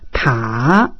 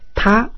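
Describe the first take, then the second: First: The pitch dips down then rises slightly. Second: The pitch rises from low to high. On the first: "O terceiro desce e sobe um pouquinho" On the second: "O segundo é ascendente"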